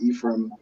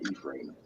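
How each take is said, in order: First: It is said in an American accent. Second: It is said in a Manchester British accent. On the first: "in America, you probably pronounce it Ephraim" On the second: "In the U K, so I'm from Manchester"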